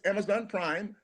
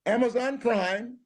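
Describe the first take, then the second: First: Said in the usual way. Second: Slow drawn-out promo read; announcer plug. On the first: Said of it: "repeat plug plainly". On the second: Acted. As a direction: sell it like an announcer. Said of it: "slow announcer plug".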